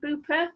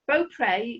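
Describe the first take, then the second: First: The name is said like 'Booper'. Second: The name is said as written, like 'Beaupre'.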